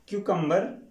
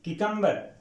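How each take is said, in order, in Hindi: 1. पहला अक्षर 'kyoo' बोला जाता है। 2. पहला अक्षर 'ki' बोला जाता है। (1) "कुछ लोग क्यू की आवाज भी यहां निकालते हैं" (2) "यहां पे यानी की की आवाज आएगी"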